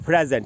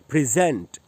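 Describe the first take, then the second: First: The stress is on the first syllable. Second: The stress is on the second syllable. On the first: It is used as a noun or adjective. "प्र में जो ए है वहीं पर stress है" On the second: It is used as a verb. "जै में जो ए है उसी पर स्ट्रेस है"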